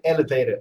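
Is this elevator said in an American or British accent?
American. It is said with an American pronunciation. "I would not say elevator"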